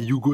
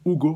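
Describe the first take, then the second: First: The name starts with a 'y' glide sound. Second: The name starts directly with a plain vowel. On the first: The speaker calls it wrong. "c'est pas Hugo" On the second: The speaker calls it right. "c'est plus Hugo, ouais, je pense que ça, ça passe plus comme ça"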